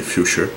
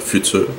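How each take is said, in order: First: The name ends with a sha-like sound. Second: The name ends with an r sound. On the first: The speaker calls it right. "mais la vraie prononciation c'est Fuchsia" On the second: The speaker calls it wrong. "ou euh, Future"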